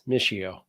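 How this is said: The name is said with an American pronunciation. This is how the name is said in the United States. "when you're in the States"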